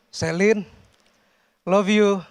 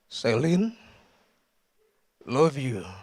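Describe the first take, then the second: First: It is said in a normal voice. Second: It is said in an exaggerated deep voice.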